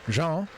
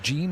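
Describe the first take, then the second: First: The name is pronounced the French way. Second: The name is pronounced the English way. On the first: "the Francophone Jean" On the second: "the anglicized Jean"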